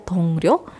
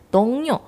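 First: The consonant after 'dong' is an R sound. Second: The consonant after 'dong' is an N sound. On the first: The speaker calls it wrong. "Tulisannya adalah dongryo" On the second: The speaker calls it right. "tapi dibacanya dongnyo"

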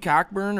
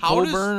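First: The k sound in the middle is pronounced. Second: The k sound in the middle is silent.

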